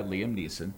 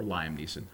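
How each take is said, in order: First: Liam with a short ee sound, lee-um; Liam said one way. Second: Liam with an eye sound, lie-um; Liam said the other way. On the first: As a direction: say Liam as lee-um, then Neeson. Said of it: "I say Liam". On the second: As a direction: say Liam as lie-um, a little softer. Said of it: "You could say Liam". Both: Shown as a demonstration.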